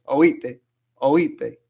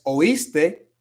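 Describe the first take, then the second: First: "oíste" as "oíte", the s dropped, rising at the end; Caribbean s-drop in "oíste"; Dominican oíste. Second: Said in the usual way. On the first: Shown as a demonstration. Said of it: "Van a decir". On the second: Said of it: "como del verbo oír".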